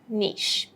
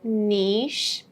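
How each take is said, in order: First: The E vowel is kept short. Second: The E vowel is held long. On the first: "in American pronunciation, we would mostly say niche" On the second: "In the British version, we would say niche, a long E"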